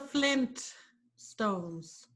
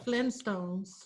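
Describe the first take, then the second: First: The t at the end of Flint is clearly pronounced. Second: The t at the end of Flint is dropped. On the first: The speaker calls it right. "it has two T's. Yeah. So it's the Flint Stones" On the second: The speaker calls it wrong. "It's not the Flintstones without a T in"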